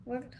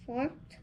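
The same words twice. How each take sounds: First: Worked said with a w sound, "worked"; corrected reading after a prompt; corrected word. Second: Forked said with an f sound, "forked"; stumbling misreading; misread word. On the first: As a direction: reads "worked" properly, starting with w. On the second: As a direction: reads worked as "forked", starting with f. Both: Real, not acted.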